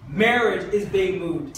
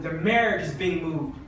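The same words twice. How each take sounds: First: Marriage is being moved, slowed right down and said a bit louder; repeated slowly for weight; slow emphatic repeat. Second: Said in the usual way. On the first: Shown as a demonstration. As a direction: lean on "Marriage" and drag the line out.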